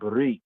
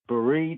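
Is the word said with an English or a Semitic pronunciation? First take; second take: Semitic; English. First: It is said with a Semitic-style pronunciation. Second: It is said with a plain English pronunciation. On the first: "more of the Afro-Shemitic enunciation" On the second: "in a kind of a plain English sense"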